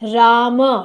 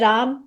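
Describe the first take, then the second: First: The final part of the word is stressed. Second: The ending is clipped without any final stress. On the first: "last वाले शब्दों पर बल दिया जाता है" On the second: "ये हिंदी वाला हो गया"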